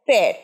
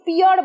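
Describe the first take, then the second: First: The vowel sounds like the eh in pair. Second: The vowel sounds like the ee in peer. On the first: The speaker calls it right. "এটা সঠিক উচ্চারণ হচ্ছে পেয়ার" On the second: The speaker calls it wrong. "পিয়ার বলো তোমরা অনেকে, যেহেতু P এর পর ই আছে"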